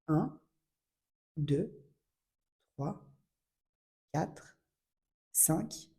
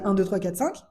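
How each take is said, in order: First: The numbers are counted slowly, spaced far apart. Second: The numbers are counted quickly, close together. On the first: The speaker calls it right. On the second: The speaker calls it wrong.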